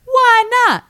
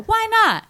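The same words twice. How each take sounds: First: Very high, shouted relay; loud bystander. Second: Very high-pitched relayed question; relaying bystanders. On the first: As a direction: holler the question, exaggerated and high. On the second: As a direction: pass it along in a squeaky-high call. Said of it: "So then they go". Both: Retold or imitated.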